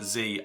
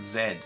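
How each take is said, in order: First: The letter is said as zee. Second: The letter is said as zed. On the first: This is the American pronunciation. "America is the only one that pronounces it Z" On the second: This is the pronunciation used in most places. "most places actually pronounce it Z"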